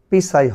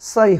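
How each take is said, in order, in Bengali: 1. এই সিলেবলটি উচ্চারিত p দিয়ে শুরু হয়। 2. এই সিলেবলটি কোনো p ধ্বনি ছাড়াই শুরু হয়। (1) "এখানে কিন্তু পি সাই হয়নি" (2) "সাই হয়েছে"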